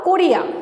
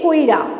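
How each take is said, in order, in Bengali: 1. i ধ্বনিটি r-এর পরে আসে। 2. i ধ্বনিটি r-এর আগে আসে। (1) "এটাকে না বলে" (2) "রয়ের আগে আমরা হর্ষইকারটা উচ্চারণ করছি"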